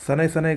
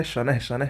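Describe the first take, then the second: First: शनैः शनैः as "sanai sanai", no h; wrong pronunciation. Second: शनैः शनैः each ending in an h breath; correct pronunciation. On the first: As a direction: drop the visarga from शनैः. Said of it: "गलत है". (शनैः को "सनै" बोलें) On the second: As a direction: sound the visarga in both शनैः. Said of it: "सही होगा". (शनैः में विसर्ग बोलें) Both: Shown as a demonstration.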